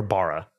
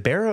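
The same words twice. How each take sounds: First: First vowel of Barra broad, like "bar"; Barra with open A. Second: First vowel of Barra like "bear"; Barra with short E. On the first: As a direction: say Barra as BAH-ruh. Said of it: "Australians would say Bora". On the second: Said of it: "You said Barra swap? Is it". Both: Shown as a demonstration.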